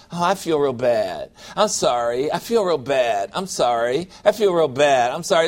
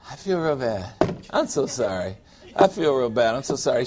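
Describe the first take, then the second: First: Low, droning mock self-pity; sulky sorry-for-myself voice; mopey apology. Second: Lower, softer canned apology; mumbled mock sorrow on repeat; recorded self-pity. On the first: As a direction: whine it like a broken record. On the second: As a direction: play it back like a tired recording. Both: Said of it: "Get a recording and hit that every time".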